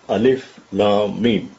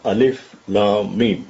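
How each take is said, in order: First: Three letter names are spoken one by one. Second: The same.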